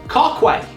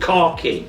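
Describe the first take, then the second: First: The second syllable sounds like 'kway'. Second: The second syllable sounds like 'key'. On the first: The speaker calls it wrong. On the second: The speaker calls it right.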